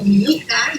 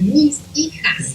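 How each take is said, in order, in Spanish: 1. Las S se omiten en ambas palabras. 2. Las S se pronuncian en ambas palabras. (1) "yo a veces le entiendo mi hija" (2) "está diciéndome mis hijas"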